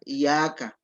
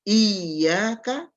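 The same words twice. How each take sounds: First: The y sound is short and single. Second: The y sound is held long and doubled. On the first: The speaker calls it wrong. "tidak boleh dibaca tanpa tasydid. Misalnya dibaca" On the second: The speaker calls it right. "harus jelas penyebutan tasydidnya"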